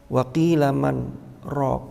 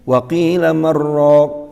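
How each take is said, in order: First: There is a brief pause without a breath. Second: The words run together with no break. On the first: The speaker calls it right. "ini harus sakta" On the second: The speaker calls it wrong. "maka itu tidak diperkenankan"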